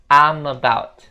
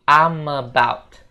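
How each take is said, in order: First: I am is contracted into one syllable. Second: I am is contracted into one syllable.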